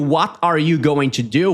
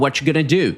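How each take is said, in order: First: Each word is said separately and fully. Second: The words are run together and reduced.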